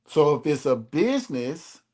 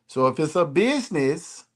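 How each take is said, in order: Both takes have the same delivery.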